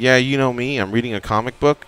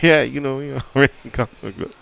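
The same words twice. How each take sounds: First: The words are spoken clearly and fully. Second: The words are slurred and half swallowed. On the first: This is what the person meant to say. The speaker calls it right. "instead of saying" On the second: This is what the person actually said. The speaker calls it wrong. "the actual letters didn't come out. The words didn't come out"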